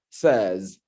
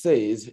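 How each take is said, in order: First: Says with a short E, rhyming with fez; correct SAYS. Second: Says with a long AY, rhyming with days; mispronounced SAYS. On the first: Grammarian correcting club members' pronunciation, "says" said as SEZ. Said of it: "it's pronounced says". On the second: Grammarian showing club members the wrong form, mispronounced "says" as SAYZ. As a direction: say "says" like "say" plus a z. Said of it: "is not pronounced says". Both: Shown as a demonstration.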